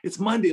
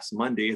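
First: It is said in an excited, eager tone. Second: It is said in a disappointed, dreary tone.

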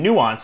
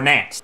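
First: The word begins with two vowels, new-ah. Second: The word begins with a short 'nan' sound. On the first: The speaker calls it right. "instead of saying nuanced" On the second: The speaker calls it wrong. "or nanced"

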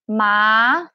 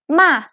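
First: The pitch rises across the syllable. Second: The pitch falls across the syllable. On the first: "the tone goes up" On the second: "this is the fourth tone"

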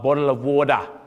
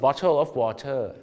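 First: It is said in an Australian accent. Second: It is said in a Thai accent. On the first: "ออสเตรเลียจะบอกว่า" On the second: "สำเนียงไทยไหมฮะแต่ออกเสียงได้ถูกต้อง"

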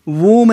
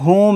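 First: The word begins with a w sound. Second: The word begins with an h sound. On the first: The speaker calls it wrong. "वूम नहीं है" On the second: The speaker calls it right. "अब ये word होम है"

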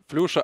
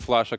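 First: The first vowel sounds like 'yu'. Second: The first vowel sounds like 'a'. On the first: This is how the commentators say the name. "Почему вы говорите Флюша" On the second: This is how the name sounds in English. "как это звучит на английском языке"

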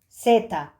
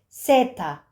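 Both takes have the same delivery.

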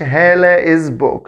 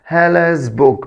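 First: The s is said as a separate syllable. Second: The s is attached directly to the name. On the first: The speaker calls it wrong. "ما اقولش هالة از بوك" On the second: The speaker calls it right. "بلزق ابوستروفي اس الملكية في الاسم على طول"

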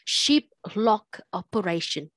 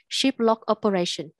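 First: Every word is pushed out with heavy force. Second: The words flow evenly with normal stress. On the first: The speaker calls it wrong. "That's what you read. No, don't do that" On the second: The speaker calls it right. "Just pronounce normally"

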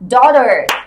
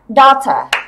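First: It is said in an American accent. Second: It is said in a British accent.

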